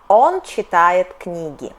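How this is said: The pitch stays level, then falls at the end. It states a fact. "Intonation is straight and then down"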